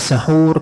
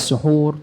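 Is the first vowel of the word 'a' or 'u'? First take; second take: a; u. First: The first vowel is an open 'a' sound. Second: The first vowel is a rounded 'u' sound. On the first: It refers to the pre-dawn meal itself. "kalau dibaca sahur, maka maksudnya adalah hidangannya" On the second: It refers to the act of eating before dawn. "kalau suhur pakai dhammah"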